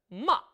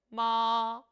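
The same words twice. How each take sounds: First: The syllable is short with a sharp, struck start. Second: The pitch stays high and is held long. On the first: "사성은 짧게 첫 음을 탁 쳐주는데요" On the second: "일성은 높은 음을 길게 빼주죠"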